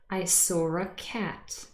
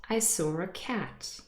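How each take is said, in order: First: Said fast, with an r between saw and a. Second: The same.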